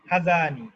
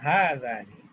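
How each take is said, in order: First: The first vowel is said short. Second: The first vowel is held long. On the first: The speaker calls it wrong. "নট" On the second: The speaker calls it right. "এরকম"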